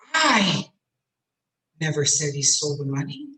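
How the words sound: The word "I" is stressed. Someone else said it, not me. "I wouldn't say such a thing. I?"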